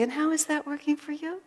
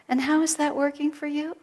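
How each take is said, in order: First: High, sweet rising question; sweetly. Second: Gentle high question, rising; sweetly. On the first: Healer sweetly questioning the speaker's stinky attitude. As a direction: ask it as tenderly as you can. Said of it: "She said it so sweetly". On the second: Healer gently asking a stubborn student, sweetly. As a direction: ask it sweetly, with a lift. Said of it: "so sweetly she said". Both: Retold or imitated.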